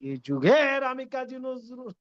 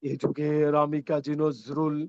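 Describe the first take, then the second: First: The voice jumps suddenly from low to loud. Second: The voice builds up gradually from low to loud. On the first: The speaker calls it wrong. "মন্দ্র থেকে এক লাফে চলে গেলেন উদাত্তে" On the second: The speaker calls it right. "সহনীয় করি"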